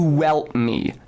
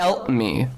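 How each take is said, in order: First: A linking w sound begins the word. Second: A glottal stop begins the word. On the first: The speaker calls it right. "To welt me with a w" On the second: The speaker calls it wrong. "No glottal stop"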